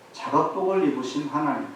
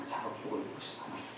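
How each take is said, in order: First: Said in the usual way. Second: 작업복을 입으신 하나님 in a soft, fast whisper. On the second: Shown as a demonstration. Preacher whispers the book title to the congregation. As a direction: breathe the title back quietly, almost to yourself.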